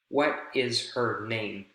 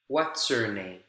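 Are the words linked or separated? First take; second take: separated; linked. First: Each word is said separately, choppy and bumpy. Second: The words flow together smoothly without breaks. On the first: The speaker calls it wrong. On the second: The speaker calls it right.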